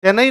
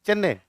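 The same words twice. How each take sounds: First: चेन्नई ending in a full "nai", pitched high; Hindi-style चेन्नई with a wide final diphthong; North Indian pronunciation. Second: चेन्नई as "CHEN-ne", short falling end; short चेन्नई with doubled n, "chenne"; original local pronunciation. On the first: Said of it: "north India वाले चेन्नई कहते हैं". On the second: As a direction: say चेन्नई ending in a plain "e", not "ai". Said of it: "चेन्नई आता नहीं है बोलना". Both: Shown as a demonstration.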